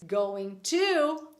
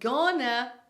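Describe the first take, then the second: First: Both words are said fully and separately. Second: The words merge into one reduced word.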